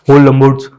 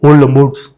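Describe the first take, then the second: No difference in how they are said.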